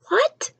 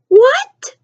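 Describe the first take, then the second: First: Breathless high whispered what; stunned whisper. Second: Much higher, louder rising what; incredulous shout. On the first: The family freezing at the dinner table, whispering in disbelief. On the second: The family at dinner, shouting in disbelief at the sister. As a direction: blurt it out in disbelief. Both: Retold or imitated. Family reacting to odd word.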